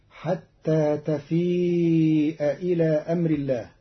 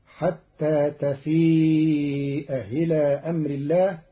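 First: Slow chanted tarteel of تفيء إلى; sung, recite the verse slowly with a melody; sung, Quran recitation. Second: تفيء إلى recited with the hamza of إلى softened; eased hamza recitation. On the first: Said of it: "قرأ قالون كلمتي تفيء إلى". (sung, ترتيل قرآني بطيء) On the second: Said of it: "فتصير". (تسهيل الهمزة في تفيء إلى ترتيلا) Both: Shown as a demonstration.

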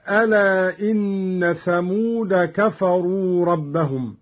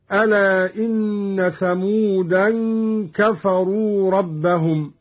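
First: ثمود said "thamuda", plain final a; no tanwin. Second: ثمودا said "thamudan", nasal n ending; tanwin. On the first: Teacher quoting the verse first, ثمود without final n. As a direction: go from ثمود straight into كفروا. Verse before Qalun's reading is shown. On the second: Teacher showing Qalun's reading, tanwin on ثمودا. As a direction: hum the final n of ثمودا into كفروا. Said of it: "بتنوين كلمة ثمود". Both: Shown as a demonstration.

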